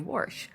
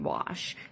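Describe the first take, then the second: First: It is said in a Pittsburgh accent. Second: It is said in a general American accent. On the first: "when they say wash" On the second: "they mean wash"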